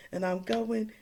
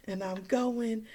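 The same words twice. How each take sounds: The two takes are said the same way.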